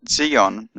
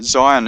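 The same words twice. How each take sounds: First: The word is said with Hebrew pronunciation. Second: The word is said with English pronunciation.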